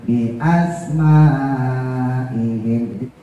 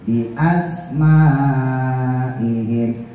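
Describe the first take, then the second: No difference in how they are said.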